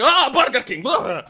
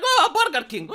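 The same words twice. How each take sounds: First: Dismissive, louder scoff at the brand; mock disgust. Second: Mocking the brand name through a laugh; laughing scoff. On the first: Everyone mocking the brand, scoffing. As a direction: sneer the name like it's a joke. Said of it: "everyone goes like". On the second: The speaker seeing it in stores, laughing scoff. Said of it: "I'm like".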